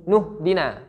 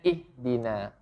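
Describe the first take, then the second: First: The word starts with a linked 'nu' sound. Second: The word starts with a fresh 'i' sound. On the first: The word is joined to the word before it. "Jadi di sini nasta'inu, nuhdina bacanya" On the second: Reading starts fresh at this word. "kalau seandainya kita baca dari sini bacanya ihdina"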